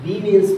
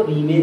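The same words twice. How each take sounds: First: रीमेन्स with a final s; plural रीमेन्स. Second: रीमेन ending on n, no s; singular रीमेन. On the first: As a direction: end रीमेन्स on a clear ns. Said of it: "रीमेन्स बोला जाता है". (रीमेन्स, आख़िर में स के साथ) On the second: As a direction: say रीमेन without the final s. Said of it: "रीमेन नहीं बोला जाता". (रीमेन, आख़िर में स के बिना) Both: Shown as a demonstration.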